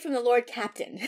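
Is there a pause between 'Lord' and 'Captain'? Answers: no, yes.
no. Lord and Captain run together without a pause. The dish comes from someone with the rank Lord Captain. "He doesn't say"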